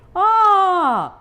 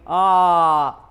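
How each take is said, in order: First: It is said in a high voice. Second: It is said in a low voice.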